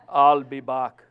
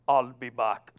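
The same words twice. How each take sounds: First: It is said in a strong, tough, muscular voice. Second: It is said in an ordinary, plain voice.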